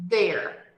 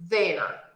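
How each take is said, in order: The two takes are said the same way.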